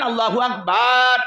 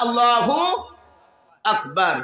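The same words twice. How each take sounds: First: The final vowel is stretched out long. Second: The final vowel is kept short. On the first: It would change the meaning to something insulting. The speaker calls it wrong. "আপনি সেটা টেনে পড়বেন" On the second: It keeps the meaning that God is greatest. The speaker calls it right. "শর্টে বলবেন"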